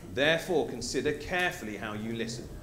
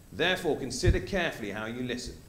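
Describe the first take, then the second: Both takes have the same delivery.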